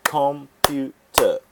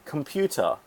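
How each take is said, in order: First: Clapped syllables. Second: Said in the usual way. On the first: Shown as a demonstration. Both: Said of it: "Three syllables again".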